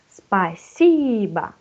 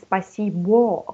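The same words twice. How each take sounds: First: The final vowel sounds like an 'a'. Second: The final vowel sounds like a full 'o'. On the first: This is how the word is actually spoken. "you pronounce a because under stress they give for us спасибо" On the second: This is how the word is written. "it's right спасибо"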